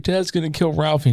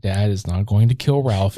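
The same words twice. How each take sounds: First: Put-on higher, softer little-boy worry; little brother. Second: Lower, measured motherly denial; reassuring mom. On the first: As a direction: lightly imitate a fretting small boy. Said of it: "his little brother is just like". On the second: Retold or imitated. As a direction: lightly imitate a mother calmly settling her child. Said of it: "And she's like".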